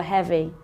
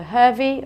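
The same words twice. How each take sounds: First: "heavy" with an open "eh", as in head; short "e" vowel. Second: "heavy" mispronounced as "hurvy"; wrong "er" vowel. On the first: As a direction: say "heavy" to rhyme with "bevy". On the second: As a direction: say "heavy" with the long vowel of "her". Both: Shown as a demonstration. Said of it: "Is it an uh or an air sound?".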